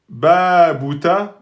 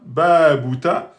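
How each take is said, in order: No difference in how they are said.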